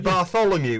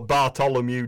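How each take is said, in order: First: The middle consonant is a th sound. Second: The middle consonant is a plain t sound. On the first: The speaker calls it right. "It's a T-H" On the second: The speaker calls it wrong. "he will not go Bartholomew Diaz"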